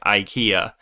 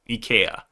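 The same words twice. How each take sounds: First: It is said the usual American way. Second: It is said the usual Korean way. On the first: "So Americans say IKEA" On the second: "in Korea, when it came in, we started pronouncing it IKEA"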